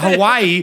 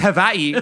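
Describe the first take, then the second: First: It is said with a mainland American pronunciation. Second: It is said with a local Hawaiian pronunciation. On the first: The speaker calls it wrong. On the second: The speaker calls it right. "A local Hawaiian would say it's Hawaii"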